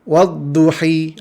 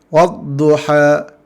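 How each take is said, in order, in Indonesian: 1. Vokal akhirnya adalah bunyi i yang penuh. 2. Vokal akhirnya adalah a terbuka yang jelas. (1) "Bacaan kasrahnya wadduhi, ha, itu tidak ada dalam Al-Quran" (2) "bacaan fathahana dibaca dengan fat, baris atas"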